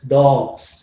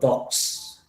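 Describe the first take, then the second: First: The plural ending is a voiced z sound. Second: The plural ending is a voiceless s sound. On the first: The speaker calls it right. "the word dog ends with, you know, voiced consonant, that is g. So it is, that's why it is pronounced as dogs" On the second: The speaker calls it wrong. "instead of dogs"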